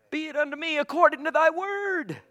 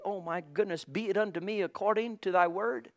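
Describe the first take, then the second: First: High, ringing proclamation; fervent declaration. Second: Softly voiced, gently sweet quote; sweetly. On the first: Real, not acted. Repeats Mary's words as fervent declaration. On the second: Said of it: "as Mary said so sweetly".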